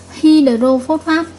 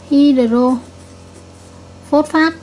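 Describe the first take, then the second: First: Hydrophosphate drawn out slowly, each syllable clear; slow model reading. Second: Hydrophosphate stretched very slowly, syllable by syllable; very slow model reading. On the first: Teacher slowly modelling the salt name for her class. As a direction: spell hydrophosphate out slowly with your voice. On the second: Teacher repeats the name very slowly for pupils to copy. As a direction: drag Hydrophosphate out so every syllable lands. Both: Shown as a demonstration. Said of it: "vậy chúng ta sẽ đọc là natri".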